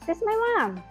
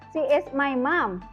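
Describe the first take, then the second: First: The two words are run together quickly. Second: Both words are said fully and separately. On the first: The speaker calls it right. "Jadi langsung dan cepat aja ngomongnya" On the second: The speaker calls it wrong. "nggak perlu terlalu dijelaskan juga"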